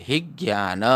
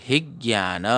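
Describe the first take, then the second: No difference in how they are said.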